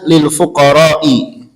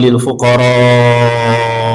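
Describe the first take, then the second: First: The vowel in fuqara is cut short. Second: The vowel in fuqara is drawn out long. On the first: The speaker calls it wrong. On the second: The speaker calls it right. "dipanjangin. Panjangnya lebih"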